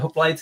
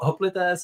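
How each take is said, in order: First: The word is given an English-style pronunciation. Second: The word is given a Greek-style pronunciation. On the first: "is just like anglicized" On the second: "is like the Greek word"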